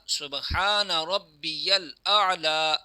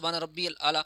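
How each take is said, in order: First: A 'ya' sound follows 'rabbi' before the 'l'. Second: 'Rabbi' runs straight into 'l' without a 'ya'. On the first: The speaker calls it right. "ये दुरुस्त तलफ़्फ़ुज़ है" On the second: The speaker calls it wrong. "हालांकि ये भी गलत है"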